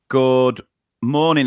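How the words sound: It is said in a formal classroom-teacher voice.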